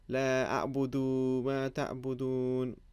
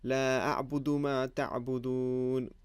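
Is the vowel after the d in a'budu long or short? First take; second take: long; short. First: The vowel after the d is stretched long. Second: The vowel after the d is kept short. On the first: The speaker calls it wrong. "But instead I said" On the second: The speaker calls it right. "It should have been"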